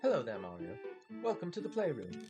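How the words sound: It is said in a put-on British accent.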